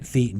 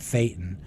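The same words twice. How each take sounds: First: The word does not rhyme with Satan. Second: The word rhymes with Satan. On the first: The speaker calls it wrong. "You don't say it Thetan" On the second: The speaker calls it right. "you say it Thetan"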